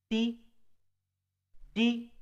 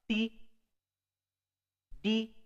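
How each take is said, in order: The two takes are said the same way.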